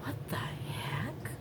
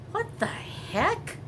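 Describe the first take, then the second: First: Slow, shocked whisper. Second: High, slow, baffled; surprised. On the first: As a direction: breathe it out in disbelief. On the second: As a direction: let the pitch jump in disbelief. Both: Real, not acted. Watching neighbors carry things out.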